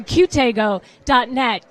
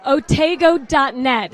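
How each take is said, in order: First: "Q" said as the letter cue, then "tego", slow and careful; corrected web address. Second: "Otego" said as one word, oh-TAY-go, the wrong way; misread web address. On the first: Host corrects herself for viewers, slow careful "Q tego". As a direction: spell out "Q" as cue before "tego", slowly. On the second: Host slips on the auction site name, "Otego" as oh-TAY-go. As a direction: slur the letter into "Otego", like oh-TAY-go. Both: Real, not acted. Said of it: "oh, I'm sorry".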